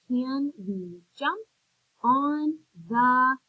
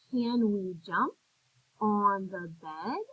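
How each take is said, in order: First: Said in the usual way. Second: Slow, voice rising at the end as a question; question tune. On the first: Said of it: "I had to make my voice go up". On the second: Shown as a demonstration. Teacher reading the sentence to young students, rising question tune. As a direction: ask it, lifting bed at the end. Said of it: "I had to make my voice go up at the end".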